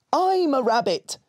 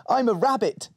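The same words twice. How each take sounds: First: Higher, louder echoing take; shadow voice. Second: Put-on little girl voice. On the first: Acted. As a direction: copy it back as the shadow. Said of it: "said the shadow". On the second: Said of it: "said Molly".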